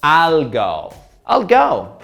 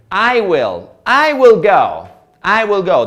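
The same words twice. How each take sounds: First: "I'll" as one syllable; short, linked "I'll go"; native contraction. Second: "I will go" in separate words, higher; careful uncontracted "I will"; full form. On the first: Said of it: "sound like a native person". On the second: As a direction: pronounce "I" and "will" each in full. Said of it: "That is absolutely correct". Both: Shown as a demonstration.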